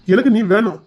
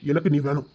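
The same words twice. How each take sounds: First: A little louder, firm; earnest declaration. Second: Softer, lower, gentle; tender. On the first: Husband insisting to his wife, firmly. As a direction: say it with conviction. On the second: Husband reassuring his frightened wife, tenderly. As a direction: murmur it tenderly. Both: Acted.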